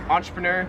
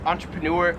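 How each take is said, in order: First: "entrepreneur" ending in "ner"; Australian pronunciation. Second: "entrepreneur" ending in "noor"; American pronunciation. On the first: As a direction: finish "entrepreneur" like "nurse" without the S. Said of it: "In Australia, they pronounce this". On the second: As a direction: finish "entrepreneur" on noor with a clear R. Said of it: "I've always pronounced this". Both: Shown as a demonstration.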